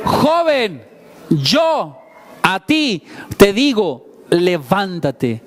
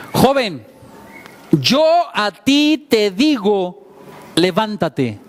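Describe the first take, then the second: First: "ti" weighted, "levántate" drawn out very slowly; slow emphatic repeat. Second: Slow, solemn command to rise; Jesus commanding. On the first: Shown as a demonstration. Preacher repeating the command for the congregation, very slowly with stress on "ti". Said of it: "¿Cómo le dijo?". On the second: Retold or imitated. Preacher voicing Jesus to the dead young man, a measured solemn command. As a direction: speak it as Jesus raising the dead youth. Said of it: "se acerca y le dice".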